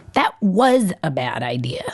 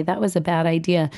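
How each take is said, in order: First: Put-on cross child. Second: Said in the usual way. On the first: A narrator's reading. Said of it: "she says crossly". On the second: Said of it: "I say instead".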